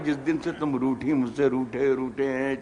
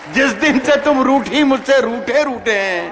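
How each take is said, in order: First: It is said in a more manly voice. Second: It sounds like a failed, heartbroken lover.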